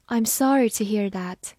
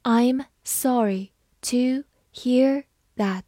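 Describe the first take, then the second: First: Said in the usual way. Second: Slow, each word apart; slow model reading of the sentence. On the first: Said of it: "慢慢来读". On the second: Shown as a demonstration. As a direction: read it slowly for learners. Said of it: "好，慢慢来读".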